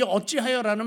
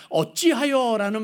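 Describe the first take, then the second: First: Said in the usual way. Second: "어찌하여" drawn out slowly and louder like a challenge; "어찌하여" spoken slow and loud, accusing; arguing tone. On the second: Shown as a demonstration. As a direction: stretch "어찌하여" slowly, pressing each syllable as if demanding an answer. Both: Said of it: "말은 지금 따지고 있는 거예요".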